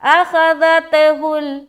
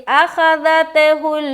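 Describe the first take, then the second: The two takes are said the same way.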